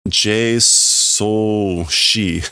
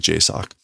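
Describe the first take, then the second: First: The acronym ends in separate letters, ending 'shee'. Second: The acronym ends in one syllable, 'sock'. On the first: The speaker calls it wrong. "That is not how you pronounce this" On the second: The speaker calls it right. "You you say J SOC"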